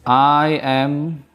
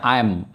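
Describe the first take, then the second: First: The two words are said separately. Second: The two words are joined into one syllable. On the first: It shows that the verb am goes with I. "Ini cara bacanya masih aku pisah" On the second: It is the normal everyday way to say it. "Kalau cara baca normalnya I'm"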